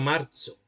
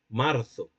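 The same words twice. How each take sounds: First: It uses an old, medieval-style middle consonant. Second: It uses a northern Spanish th-like middle consonant. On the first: This is how it was said in the Middle Ages. "como se decía en la, en la Edad Media" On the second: This is how speakers from north-central Spain say it. "los hablantes del centro norte de España son ceceantes"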